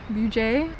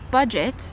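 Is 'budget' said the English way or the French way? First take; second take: French; English. First: It is said with a French-style pronunciation. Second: It is said with an English pronunciation. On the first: "in German they say it like a French pronunciation" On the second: "in English it's budget"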